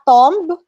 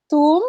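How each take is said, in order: First: Tomb with the b sounded, a touch louder; wrong tomb. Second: Tomb as TOOM, short and rising; correct tomb. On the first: Teacher repeating the wrong tomb. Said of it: "not tomb". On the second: Teacher giving the right tomb. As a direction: give tomb with a silent b. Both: Shown as a demonstration.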